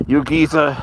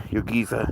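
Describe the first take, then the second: First: A light Cockney lilt on "You geezer", geezer falling; a hint of London Cockney. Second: Said in the usual way. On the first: Shown as a demonstration. Trying a Cockney accent on the UK viewers. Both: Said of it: "you speak Cockney?".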